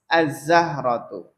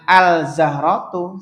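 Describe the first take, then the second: First: The L merges into a doubled Z sound. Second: The L of the article is clearly pronounced. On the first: The speaker calls it right. "Za itu juga langsung" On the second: The speaker calls it wrong. "Jangan al-zahratu, salah"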